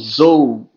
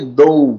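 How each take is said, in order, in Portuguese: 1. Começa com som de z vibrado. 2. Começa com som de d forte. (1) "ou então zou" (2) "vai pôr o nosso sotaque, né? Então a gente falaria dou"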